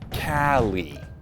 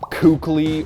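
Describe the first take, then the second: First: The name has no k sound in the middle. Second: The name has a k sound in the middle. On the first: The speaker calls it right. "everyone in the French scene, including the player in question, pronounces it Cali" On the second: The speaker calls it wrong. "It's not Kukli"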